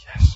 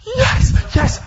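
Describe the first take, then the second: First: YES let out on breath with no voice; a held-back, breathy YES of private celebration; restrained yes. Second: YES screamed very high and loud; ecstatic yell. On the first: Alone in the car after the boss leaves, a breathy, restrained yes. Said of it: "No, that wasn't good enough". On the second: Bursting out of the car at the good news, an ecstatic scream. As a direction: let loose a jubilant, high-pitched YES. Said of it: "that wasn't good enough". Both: Retold or imitated.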